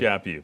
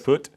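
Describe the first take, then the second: First: The name ends with a 'you' sound. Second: The name ends with a 'put' sound. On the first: The speaker calls it right. "is pronounced like slap you" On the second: The speaker calls it wrong. "People don't get that. People always like"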